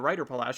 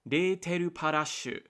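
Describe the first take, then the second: First: The name is read like English words. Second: The name is read with Japanese syllables. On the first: "because I see English uh, spelling and that's how I parse that particular phrasing" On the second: "if I'm looking at the katakana"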